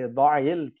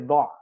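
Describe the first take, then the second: First: The word ends with a short i vowel. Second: The word ends on a bare consonant, no vowel. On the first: The speaker calls it right. "we would actually put a kasra on the ayn" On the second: The speaker calls it wrong. "We wouldn't say ضع"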